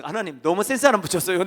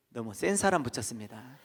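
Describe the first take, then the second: First: Louder complaint. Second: Said in the usual way. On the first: Retold or imitated. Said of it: "그래서". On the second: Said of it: "내가 그랬어요".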